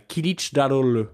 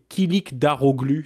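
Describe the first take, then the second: First: The name is pronounced with Turkish sounds. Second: The name is read out with French letter sounds. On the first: "comme on le prononce en, en turc" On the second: "si tu voulais que je le lise"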